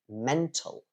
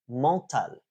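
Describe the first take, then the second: First: The first vowel sounds English. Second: The first vowel sounds French-like. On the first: The speaker calls it right. "instead of mental" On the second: The speaker calls it wrong. "something that I heard recently was mental"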